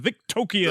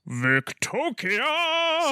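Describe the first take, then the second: First: The name is said softly and uncertainly. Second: The name is said loudly and forcefully. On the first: "I don't know if we're saying that right" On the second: "the stronger you say it, the better it sounds"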